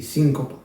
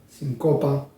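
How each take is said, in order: First: Síncopa with SÍN stressed, Spanish-style. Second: Sincopa with CO stressed, Russian-style. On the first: Teacher giving the Spanish stress after the Russian one. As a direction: put the weight on SÍN. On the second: Teacher contrasting the Russian stress with the Spanish one. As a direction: put the weight on CO. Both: Shown as a demonstration. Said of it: "en español significa otra cosa".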